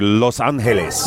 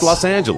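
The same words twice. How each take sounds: First: The city name is said with Spanish pronunciation. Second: The city name is said with English pronunciation. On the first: This is the technically correct form. "if you want to get technical" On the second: This is how everyone actually says it.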